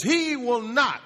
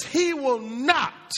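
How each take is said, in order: First: Said in the usual way. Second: "He will not." slow, each word leaned on, "not" hit hardest; emphatic. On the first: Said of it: "it's an emphatic". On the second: Shown as a demonstration. Preacher stressing the Hebrew emphatic to his congregation, slow and weighty. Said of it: "now in the Hebrew, it's an emphatic".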